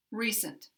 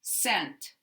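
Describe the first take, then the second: First: "Recent" stressed on the first syllable, second reduced to schwa. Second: "Scent" stressed, with a full clear eh vowel. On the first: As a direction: weaken the end of "Recent" to a short uh. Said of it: "this one sounds like schwa". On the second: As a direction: say "Scent" with an unreduced eh. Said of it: "this one sounds like eh". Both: Shown as a demonstration.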